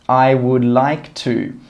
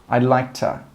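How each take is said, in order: First: I would is said in full, unjoined. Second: I would is joined into one quick syllable.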